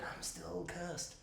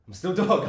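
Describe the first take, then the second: First: Hushed, slow creature voice; cursed monkey. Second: Lightly voiced dog, a bit louder; dog's parody line. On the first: Retold or imitated. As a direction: draw it out very softly as the monkey. Voicing the monkey after the credits. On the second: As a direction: toss it out as a mock dog line. Voicing the dog, parodying monkey's line.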